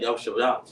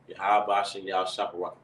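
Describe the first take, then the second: First: The words are run together quickly. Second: Each word is said slowly and separately. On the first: "some people mush them together really fast" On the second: "No, it's"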